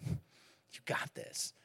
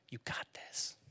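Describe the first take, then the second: First: Whispered and drawn out very slowly; dad whispering a last slow reassurance to his son; slow tender whisper. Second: Whispered encouragement, soft and close; dad whispering encouragement to his son; tender whisper. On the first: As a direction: let it linger, soothing. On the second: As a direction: breathe it as reassurance. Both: Retold or imitated. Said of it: "comfort him".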